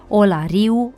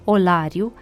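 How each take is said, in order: First: The stress falls on the i. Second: The stress falls on the a. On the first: The speaker calls it wrong. "accentul pus greșit pe i" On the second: The speaker calls it right. "sufixul de agent accentuat ar-er"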